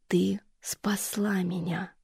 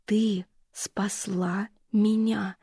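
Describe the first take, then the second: First: Медленный беззвучный шёпот; прошепчи нежно, медленно; нежный шёпот. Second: Ещё медленнее, беззвучный шёпот; растяни шёпот, утешая; нежный шёпот. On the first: Мать шепчет утешая. (мать медленным шёпотом утешает дочь) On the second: Мать повторяет шёпотом. (мать очень медленным шёпотом утешает дочь) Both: Acted.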